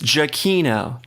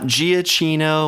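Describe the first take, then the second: First: The ending does not rhyme with Frappuccino. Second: The ending rhymes with Frappuccino. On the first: The speaker calls it right. "it's Giacchino" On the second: The speaker calls it wrong. "not Giacchino, Mochaccino, Frappuccino"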